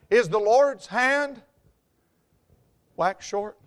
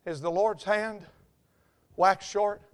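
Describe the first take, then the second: First: Slow, weighty question. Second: Hushed question. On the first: Repeats the verse, slower and fuller. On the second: Repeats the verse, first quietly. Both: Real, not acted.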